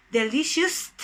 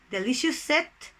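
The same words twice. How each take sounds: First: Delicious with a t tacked on the end, "delicioust"; non-existent word form. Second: "delicious set" run together as deliciousest, questioning rise; non-existent word form. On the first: Teacher offers an impossible superlative to students, questioning "delicioust". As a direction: say "delicious" ending in an extra t. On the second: Teacher tests an impossible superlative on students, questioning "delicious set". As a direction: add an "-est" syllable onto "delicious set". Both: Shown as a demonstration. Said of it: "No, that doesn't exist".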